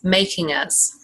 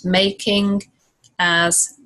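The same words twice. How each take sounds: First: The final g runs straight into as. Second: The two words are said separately.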